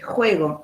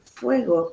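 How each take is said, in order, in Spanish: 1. La palabra empieza con un sonido 'h' aspirado. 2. La palabra empieza con un sonido 'f'. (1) "no se dice eh, eh, juego" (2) "es fuego con F"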